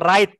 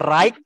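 First: No g sound is heard in the word. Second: A g sound is pronounced before the t. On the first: The speaker calls it right. "tetapi dibaca right ya" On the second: The speaker calls it wrong. "huruf G-nya jangan dibaca ya. Jadi bukan dibaca right"

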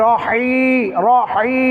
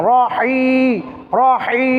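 The two takes are said the same way.

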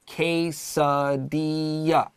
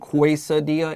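First: The word begins with a plain K sound. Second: The word begins with a KW sound. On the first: The speaker calls it right. "We also stressed that pronunciation" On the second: The speaker calls it wrong. "這個 Q-U 不是 qu.So don't say quesadilla"

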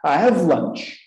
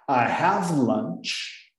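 First: It is said at normal speed. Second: It is said more slowly.

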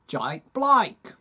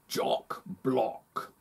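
First: It is said in an Australian accent. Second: It is said in a posh London accent. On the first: "Now I'm from Australia" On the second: "Now I'm a wealthy Londoner"

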